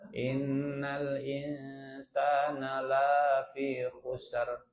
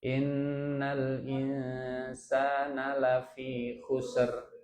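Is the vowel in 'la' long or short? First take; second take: long; short. First: The vowel in 'la' is held long. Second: The vowel in 'la' is cut short. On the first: Mankind is not in loss. "Panjang sedikit la-nya" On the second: Mankind is truly in loss. "Itu kalau la-nya dibaca pendek"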